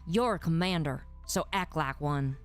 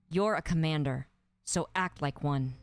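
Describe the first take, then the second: First: It is said sternly in a Southern American accent. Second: It is said sternly in a neutral accent. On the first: "So stern Southern accent" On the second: "So stern"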